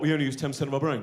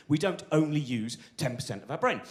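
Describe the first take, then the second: First: Fast, breezy know-it-all parroting a myth; mocking know-it-all. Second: Said in the usual way. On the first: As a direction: rattle it off like a smug pub fact. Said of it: "when people go". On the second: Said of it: "Which is not true".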